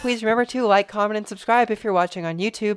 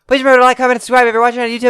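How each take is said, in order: First: It is read in a normal speaking style. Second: It is read in a rapid auctioneer style.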